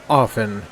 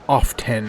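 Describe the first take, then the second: First: The T sound is silent. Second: The T sound is pronounced. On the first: The speaker calls it right. "you don't pronounce the T in the word often" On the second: The speaker calls it wrong. "not often"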